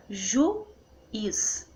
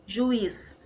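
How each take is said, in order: First: "juiz" as ju-iz, very slowly; split into syllables. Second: Said in the usual way. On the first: Shown as a demonstration. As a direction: pause between ju and iz in juiz.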